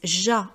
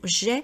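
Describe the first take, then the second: First: The word ends in an open 'ah' vowel. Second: The word ends in a closed 'eh' vowel. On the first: The speaker calls it wrong. "les gens disent ja" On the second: The speaker calls it right. "on doit bien prononcer également le son j'ai"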